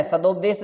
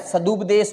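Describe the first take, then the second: First: सदोपदेश with "do" in the middle; सदोपदेश with a long O after d; wrong O. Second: सदुपदेश with "du" in the middle; सदुपदेश with U after d, not O; correct U. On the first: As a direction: say सदोपदेश as sa-DOP-desh. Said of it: "सदोपदेश नहीं होता है". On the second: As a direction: say सदुपदेश as sa-DUP-desh. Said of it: "सदुपदेश होता है". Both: Shown as a demonstration.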